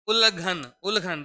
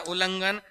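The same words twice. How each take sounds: First: उल्लंघन as ul-ghan, nasal missing; wrong form without nasal. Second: उल्लंघन as ul-lang-ghan; correct form with nasal. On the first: Teacher reading out the wrong spelling, उल्लंघन as ul-ghan. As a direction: say उल्लंघन loudly without the "lan". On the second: Teacher correcting the word for students, उल्लंघन with nasal "lang". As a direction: say उल्लंघन with a clear "lang" in the middle. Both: Shown as a demonstration. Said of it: "जबकि शब्द होता है हमारा".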